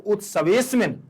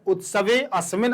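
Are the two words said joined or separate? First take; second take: joined; separate. First: The words run together with the 'a' barely sounded. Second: Both words are said apart with a full 'a'. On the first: "एक साथ पढ़ेंगे तो उत्सवेस्मिन, आ का उच्चारण पूरा नहीं करेंगे" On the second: "अलग अलग करने पर अस्मिन पढ़ते हैं"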